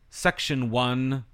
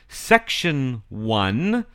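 First: It is said at a normal pace. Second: It is said more slowly.

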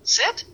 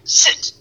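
First: It is said as a confused question. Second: It is said as a firm command. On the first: The speaker is unsure about the word. "we're like, sit?" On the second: The dog is being ordered to sit. "like you're telling your dog to sit, like sit"

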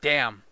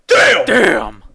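First: The word is said flatly, with little energy. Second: The word is said with strong excited emphasis. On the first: The speaker calls it wrong. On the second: The speaker calls it right.

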